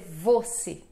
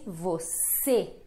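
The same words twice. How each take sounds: First: The stress is on the first syllable. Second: The stress is on the second syllable. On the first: The speaker calls it wrong. "Não vamos dizer você" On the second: The speaker calls it right. "a mais forte é o C, é a segunda sílaba"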